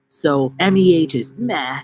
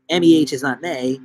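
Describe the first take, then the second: First: "meh" said with an open, short e, no glide; "meh" pronounced with short vowel. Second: "may" said to rhyme with "day"; "may" pronounced with long A. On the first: Streamer puzzling over spelling, "meh" with short vowel. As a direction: say "meh" to sound like "mah" flattened towards "eh". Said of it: "It's meh". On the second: Streamer puzzling over spelling, "may" with long A. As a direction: glide the vowel in "may" from eh to ee. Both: Shown as a demonstration.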